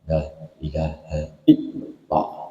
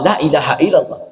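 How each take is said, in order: First: It is said quietly with a strong inner thrust. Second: It is said loudly without a strong inner thrust. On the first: The speaker calls it right. "Suaranya pelan tapi hentakannya kuat" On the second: The speaker calls it wrong. "Ini suaranya keras tapi tidak bisautin qawiyin"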